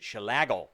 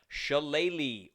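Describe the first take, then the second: First: The word ends with a 'gull' sound. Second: The word ends with a 'lee' sound. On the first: The speaker calls it wrong. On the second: The speaker calls it right.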